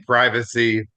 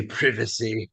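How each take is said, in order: First: "privacy" with a long i, as in "prize"; American pronunciation. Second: "privacy" with a short i, as in "privet"; British pronunciation. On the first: Comparing English with ours, the American long-i "privacy". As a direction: say "privacy" as PRY-vuh-see. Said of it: "the English pronunciation and". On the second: Comparing English with ours, the British short-i "privacy". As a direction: say "privacy" as PRIV-uh-see. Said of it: "they say privacy". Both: Shown as a demonstration.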